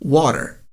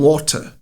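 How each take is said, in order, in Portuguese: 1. É pronunciado com sotaque americano. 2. É pronunciado com sotaque britânico.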